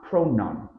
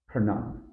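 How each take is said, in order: First: Pronoun as pro-nun, with a full O first. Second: Pronoun as a short pruh-NUN; reduced first vowel. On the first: Teacher showing what to avoid, full first vowel. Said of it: "It's not". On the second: Teacher correcting to the nun part, reduced first vowel. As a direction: shrink the start of pronoun, land on nun. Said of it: "focus on the nun part". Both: Shown as a demonstration.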